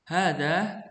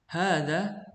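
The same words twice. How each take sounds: No difference in how they are said.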